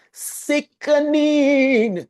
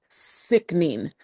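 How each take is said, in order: First: Very slow, high, louder "sickening"; real delighted drawl on "sickening"; drawn-out rave. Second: Said in the usual way. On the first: Real, not acted. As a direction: stretch "sickening" out in awe. Raving about the coast.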